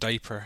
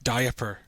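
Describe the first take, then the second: First: It is said in the speaker's own accent. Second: It is said in an imitated Scottish accent.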